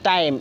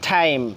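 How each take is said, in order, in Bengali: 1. t উচ্চারণটি আনঅ্যাসপিরেটেড, বাংলা ট-এর মতো। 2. t উচ্চারণটি aspirated, বাংলা ঠ-এর মতো। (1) "আগে পড়তাম আমরা টাইম" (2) "এখন থেকে কি বলবো"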